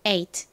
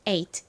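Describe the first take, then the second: The two takes are said the same way.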